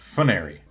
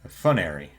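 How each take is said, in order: First: The opening F and N blend into one cluster. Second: A vowel splits the opening F and N apart. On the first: "I believe that to be correct" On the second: "pronounces it as like two separate syllables almost"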